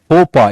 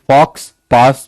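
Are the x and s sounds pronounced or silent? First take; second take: silent; pronounced. First: The x and s sounds are silent. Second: The x and s sounds are pronounced. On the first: The speaker calls it right. "फोपा is the pronunciation" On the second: The speaker calls it wrong. "मत पढ़ना, ये फ्रेंच है, जो लिखते हैं वो बोलते नहीं है"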